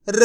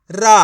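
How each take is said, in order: First: र as a half sound, no आ vowel; half-sounded letter. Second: रा opened out with a loud full आ; full vowel demo. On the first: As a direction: say र without opening it into रा. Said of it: "उसका उच्चारण आधा करना है". (र का आधा उच्चारण) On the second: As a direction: sound रा loudly as a whole syllable. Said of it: "ऐसे नहीं पढ़ना आपको". (रा, पूरा आ लगाकर) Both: Shown as a demonstration.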